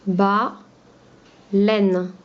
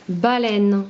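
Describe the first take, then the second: First: "Ba, laine" in two held beats, pause between; split into syllables. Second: Said in the usual way. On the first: Shown as a demonstration. Teacher dividing the word for pupils, "Ba, laine" syllable by syllable. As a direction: say "Ba", wait, then "laine". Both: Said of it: "On enlève la première syllabe".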